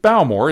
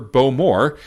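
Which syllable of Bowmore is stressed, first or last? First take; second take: first; last. First: The stress is on the first syllable. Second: The stress is on the last syllable. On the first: The speaker calls it wrong. "I pronounced it Bowmore" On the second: The speaker calls it right. "the proper Bowmore"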